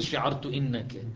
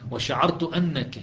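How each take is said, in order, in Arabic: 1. الكلمة الثانية تبدأ بحركة 'i'. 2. الكلمة الثانية تبدأ بحركة 'a'. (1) "ما يصير" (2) "تأتي بعدها أن مفتوحة الهمزة"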